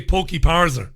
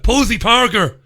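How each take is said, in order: First: "Pokey Parser", K and S swapped between the words; slip of the tongue. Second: "Posey Parker" punched loud and higher; corrected name. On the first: Host repeating his own slip of a guest's name, mispronounced. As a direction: say "Pokey Parser", a muddled Posey Parker. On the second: Host correcting his slip of a guest's name, loud and emphatic. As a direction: hit "Posey Parker" emphatically, S first, K second. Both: Shown as a demonstration. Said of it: "Why would I have said that".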